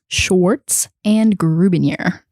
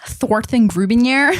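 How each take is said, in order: First: It is said in her ordinary speaking voice. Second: It is said in a put-on character voice.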